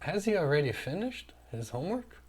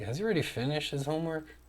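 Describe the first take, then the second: First: The question sounds light and simply curious. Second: The question sounds pressing and demanding. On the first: The speaker just wants to know. "um tom só de curiosidade, né? Você só quer saber" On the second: The speaker expects it done and is waiting. "Agora eu quero cobrar uma posição"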